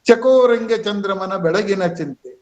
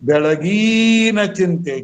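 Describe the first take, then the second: First: The vowel of 'gi' is kept short. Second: The vowel of 'gi' is drawn out long. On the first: The speaker calls it right. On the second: The speaker calls it wrong.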